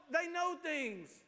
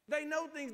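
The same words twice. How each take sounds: First: They know things, each word slow and weighty; slow emphasis. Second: Said in the usual way. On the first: Shown as a demonstration. Preacher urging trust in elders, slow emphatic. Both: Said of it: "but ask an adult".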